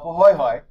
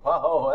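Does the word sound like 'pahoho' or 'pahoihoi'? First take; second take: pahoihoi; pahoho. First: The word is said with 'hoy' syllables. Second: The word is said as two plain 'ho' syllables. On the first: This is how the term is really pronounced. The speaker calls it right. "it's probably right" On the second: This is the reading the written word suggests. The speaker calls it wrong. "That's exactly what it looks like"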